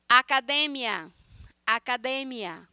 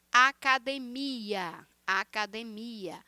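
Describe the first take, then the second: First: "Academia" stressed on DE, with short -mia; Spanish penultimate stress. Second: "Academia" slowly stressed on MI; Portuguese MI-a stress. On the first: Teacher demonstrating Spanish, "academia" stressed on DE. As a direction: hit DE in "academia". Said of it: "penúltima sílaba em espanhol". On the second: Teacher showing Portuguese, "academia" with long stressed MI. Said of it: "em português é a última sílaba". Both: Shown as a demonstration.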